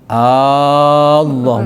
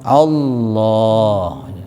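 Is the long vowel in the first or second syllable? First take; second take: first; second. First: The opening vowel is drawn out long. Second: The vowel after the l is drawn out long. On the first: The speaker calls it wrong. "Jangan dibalik Allah, bukan gitu" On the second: The speaker calls it right. "tempatnya panjang ba'dal lam"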